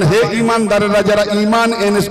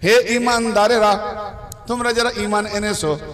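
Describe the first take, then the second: First: It is said quickly and hurriedly. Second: It is said slowly and carefully.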